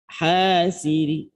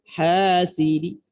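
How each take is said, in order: Both takes have the same delivery.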